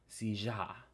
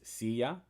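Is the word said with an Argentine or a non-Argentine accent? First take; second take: Argentine; non-Argentine. First: It is said in an Argentine Spanish accent. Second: It is said in a non-Argentine Spanish accent. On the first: "If you're from Argentina, a chair is silla" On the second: "for me, a chair is silla"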